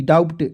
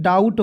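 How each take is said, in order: First: डाउट said wrongly with the b sounded, like "daubt"; wrong pronunciation. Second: डाउट said correctly as "daut", b silent; correct pronunciation. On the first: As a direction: read डाउट the common wrong way, b pronounced before the t. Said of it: "डाउट बहुत लोग पढ़ लेते हैं". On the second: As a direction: read डाउट the right way with no b sound. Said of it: "बी इसमें अब silent रहता है". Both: Shown as a demonstration.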